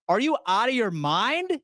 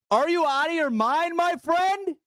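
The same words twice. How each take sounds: First: Said in the usual way. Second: Rising shout. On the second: Real, not acted. Ranting at a timid fan, shouting in disbelief. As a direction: voice climbs high into a shout on the repeat.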